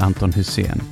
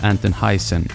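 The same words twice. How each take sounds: First: The name is pronounced with Swedish sounds. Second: The name is pronounced with English sounds.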